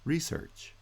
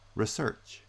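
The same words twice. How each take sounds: First: The stress is on the first syllable. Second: The stress is on the second syllable. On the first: It is used as a noun. "noun-verb pairs" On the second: It is used as a verb. "noun-verb pairs"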